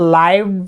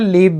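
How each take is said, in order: First: The vowel sounds like 'eye'. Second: The vowel sounds like 'ee'. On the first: "इसको लाइव भी पढ़ सकते हैं" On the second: "लीव भी पढ़ सकते हैं"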